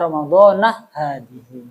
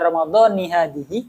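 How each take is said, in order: First: The first word ends with an 'a' vowel. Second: The first word ends with an 'i' vowel. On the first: The word is in the dependent genitive role. The speaker calls it wrong. "daripada Ramadhanah hadihi" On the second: The word is joined to the following word as its head. The speaker calls it right. "lebih baik dibaca Ramadhani hadihi"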